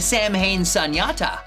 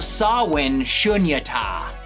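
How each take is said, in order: First: Samhain is said as sam-hain. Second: Samhain is said as sow-in. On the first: The speaker calls it wrong. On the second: The speaker calls it right.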